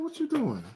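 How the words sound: The voice is soft, low and intimate. He is talking to a woman. "you see how my tone changed?"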